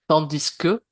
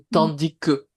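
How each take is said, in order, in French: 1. Le S final de tandis se prononce. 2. Le S final de tandis est muet. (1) "on va prononcer le S" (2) "si tu ne le prononces pas, c'est la même chose"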